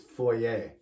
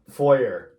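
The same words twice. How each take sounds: First: The word is pronounced the non-American way. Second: The word is pronounced the American way. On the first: The speaker calls it right. "It's foyer" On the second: The speaker calls it wrong. "if you're American, you say foyer, but that is a terrible way"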